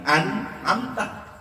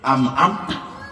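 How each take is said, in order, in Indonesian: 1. Suku kata pertama berakhir dengan bunyi n. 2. Suku kata pertama berakhir dengan bunyi m. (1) "Padahal tulisannya" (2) "baca M M semua"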